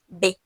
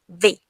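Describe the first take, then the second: First: Both lips make the sound, without teeth. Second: The upper teeth touch the lower lip. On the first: "Só o uso dos dois lábios, por isso que é B" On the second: "V é o toque dos dentes superiores com o lábio inferior"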